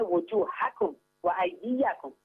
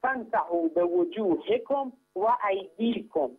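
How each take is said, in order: First: وجوهکم slowly recited with a clear fatha, wujuhakum wa aydiyakum; slow, careful Quranic recitation stressing وجوهکم with fatha endings. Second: وجوهکم slowly recited with kasra, bi wujuhikum wa aydikum; slow recitation marking the kasra in وجوهکم and ایدیکم. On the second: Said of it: "هر دوشون با کسره اومدن". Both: Shown as a demonstration.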